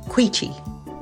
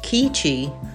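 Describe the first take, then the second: First: The name begins with a kw sound. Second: The name begins with a plain k sound. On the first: The speaker calls it right. "It is Queechee" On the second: The speaker calls it wrong. "often pronounced Keechee"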